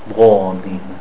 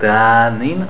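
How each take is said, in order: First: The long vowel is thick, like an O. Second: The long vowel is thin, like an A. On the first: The speaker calls it right. "Because the dhad is a thick letter" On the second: The speaker calls it wrong. "Is it thick or thin?"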